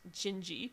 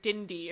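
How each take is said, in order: First: It begins with a soft J sound. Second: It begins with a hard D sound. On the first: The speaker calls it right. "It's pronounced Gingy" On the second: The speaker calls it wrong. "if you pronounce it in yeah in American English"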